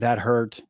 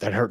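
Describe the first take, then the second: First: The phrase is said once at normal speed. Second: The phrase is repeated quickly in rapid succession. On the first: A low-frequency signal, felt as mild. "instead of saying that hurt" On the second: A high-frequency signal, felt as pain. "it's saying it so fast"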